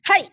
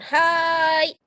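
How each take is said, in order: First: The word is short and crisp. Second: The word is drawn out long. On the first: The speaker calls it right. "Tapi singkat, jelas, dan tidak terlalu panjang pengucapan" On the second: The speaker calls it wrong. "Bukan hai"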